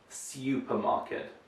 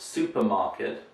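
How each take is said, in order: First: It is said in an old-fashioned way. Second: It is said in the modern, usual way. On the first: The speaker calls it wrong. "not supermarket. ... So that's old-fashioned pronunciation" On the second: The speaker calls it right. "And it's supermarket"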